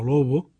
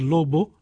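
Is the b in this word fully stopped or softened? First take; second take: softened; stopped. First: The b between vowels is softened, with air flowing. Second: The b between vowels is fully stopped. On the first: The speaker calls it right. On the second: The speaker calls it wrong. "no decir"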